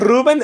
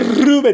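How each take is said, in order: First: The R at the start is not rolled. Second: The R at the start is rolled. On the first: Someone else says it this way. "they say like" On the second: The speaker says it this way. "I say Ruben. I'm the one who rolled the R"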